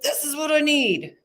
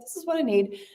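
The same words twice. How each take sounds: First: It sounds forceful and defensive. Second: It sounds calm, straight and easy. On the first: The speaker calls it wrong. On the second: The speaker calls it right. "Very straight, very easy coming out of you"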